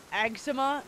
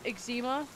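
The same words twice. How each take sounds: First: "Eczema" as AG-zuh-muh, stressed at the front; first-syllable stress. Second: "Eczema" as ig-ZEE-muh, questioning rise; long stressed ee in the middle of "Eczema"; second-syllable stress. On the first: Streamer weighs two pronunciations, "Eczema" said AG-zuh-muh. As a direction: open first vowel in "Eczema", weak middle. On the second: Streamer checks against what Google said, "Eczema" said ig-ZEE-muh. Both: Shown as a demonstration. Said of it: "Google said it was eczema".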